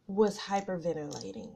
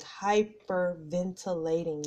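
First: Said in the usual way. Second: "hyperventilating" drawn out slowly, syllable by syllable; emphatic repeat. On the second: Real, not acted. Telling listeners about that night, "hyperventilating" slowly stressed in separate syllables.

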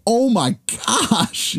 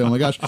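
First: High, very slow drawn-out oh my gosh; mock horror stretched out long; hammed-up gasp. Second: Said in the usual way. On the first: Coach spinning round to the injured kid, stretched high gasp. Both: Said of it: "he didn't say".

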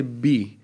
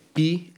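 First: "μπι" with a voiced b sound. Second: Said in the usual way. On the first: Shown as a demonstration. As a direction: turn the p into b in "μπι". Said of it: "όπου είναι ... γίνεται μπι". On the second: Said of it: "γίνεται μπι".

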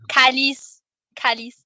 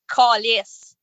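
First: Proper France French accent on "calice". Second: "calice" with a broad, rounded Quebec A; Quebecois accent. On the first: Showing co-hosts how tame it is in a French accent. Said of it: "like, a French accent". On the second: Showing how it feels like a swear word, Quebecois accent. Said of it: "the, the accent". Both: Shown as a demonstration.

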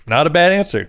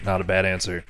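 First: Brighter, higher repeat; upbeat. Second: Quiet. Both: Shown as a demonstration. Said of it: "repeated take".

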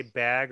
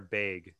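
First: Said in the usual way. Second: "bag" with an ay vowel, like "bayg"; regional BAG vowel. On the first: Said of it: "do you guys say bag or bag". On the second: Shown as a demonstration. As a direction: say "bag" to rhyme with vague. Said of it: "'cause they say bag".

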